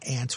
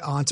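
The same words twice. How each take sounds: First: The word is said with a North American vowel. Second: The word is said with a British-style vowel. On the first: "aunt would be more North American English" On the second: "aunt might be more UK"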